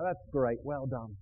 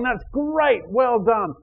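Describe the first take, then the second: First: It sounds tired and flat. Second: It sounds lively and enthusiastic.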